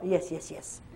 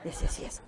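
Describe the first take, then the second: First: Lightly voiced patient saying yes, softer and lower; quoting the patient's hesitant yes, half laughing; hint of the man's English yes; imitating the man. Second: Breathy laughing repeat of yes; amused whispered yes, yes, yes; laughing echo. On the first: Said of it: "Il dit encore". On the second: Real, not acted. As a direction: laugh it out under your breath. Echoing his yes with laughter.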